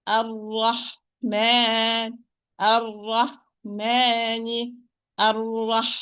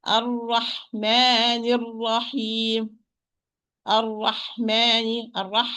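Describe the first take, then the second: First: Ar-Rahman very slow, with the ha held and full of breath; full breathy ha. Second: Ar-Rahman with the ha clipped short, no breath, slow; weak ha. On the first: Teacher modelling the correct ha in Ar-Rahman. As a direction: let the air flow through the ha of Ar-Rahman. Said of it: "Flow of sound and flow of breath". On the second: Teacher showing students the mistake of a weak ha. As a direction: cut the ha in Ar-Rahman so it loses its airflow. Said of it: "You are going to say". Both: Shown as a demonstration.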